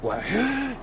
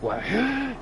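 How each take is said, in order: First: The shout sounds fierce and angry. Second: The same.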